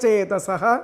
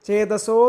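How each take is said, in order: First: The word ends in a breathy 'h'. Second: The word ends in an 'o' vowel. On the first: "വിസർഗം പറഞ്ഞ് ചൊല്ലിയാലും അത് തെറ്റില്ല" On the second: "ചേതസോ എന്ന് പറഞ്ഞാൽ അതിന് വിസർഗം അങ്ങനെയും പറയാം"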